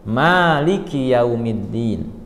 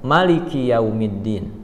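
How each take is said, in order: First: The vowel after the m is long. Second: The vowel after the m is short. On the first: This follows the transmission the listeners learned. "dengan dipanjangkan huruf mim" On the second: This follows another accepted transmission of the reading. "dengan huruf mim dibaca pendek"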